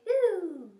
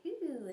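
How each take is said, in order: First: "ooh" louder, higher and open, then falling; hooty, open "ooh" swoop; open tunnel ooh. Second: "ooh" pinched through puckered lips; tight, puckered "ooh", the wrong way; lemon-face ooh. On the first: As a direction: round out "ooh" with a loose jaw. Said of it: "We want nice and open". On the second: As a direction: squeeze "ooh" as if sucking a lemon. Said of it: "like when we do lemon face". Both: Shown as a demonstration.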